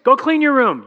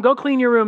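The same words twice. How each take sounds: First: Higher, louder snapped order; dad out of patience, ten weeks in; fed-up order. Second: Said in the usual way. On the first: Retold or imitated. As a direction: bark it at ignoring kids. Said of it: "not so awesome anymore". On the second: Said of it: "It's awesome".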